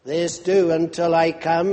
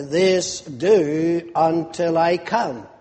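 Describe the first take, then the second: First: "do" vurgulu, sonu yükselen ezgiyle; stress on do. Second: Slow, THIS given the weight, falling at the end; "This" vurgulu, yavaş ve düşen ezgiyle; stress on this. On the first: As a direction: DO given the weight, tune rising at the end. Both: Shown as a demonstration. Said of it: "the emphasis is on the fact".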